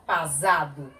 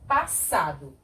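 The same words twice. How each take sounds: First: "pasado" with a voiced z; som de um S. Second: "passado" with an unvoiced s; pronúncia com S. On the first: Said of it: "Se fosse só um S". ("pasado" com som de Z) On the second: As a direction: say "passado" as pa-ssa-do. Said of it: "tem que ser passado". ("passado" com som de S) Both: Shown as a demonstration.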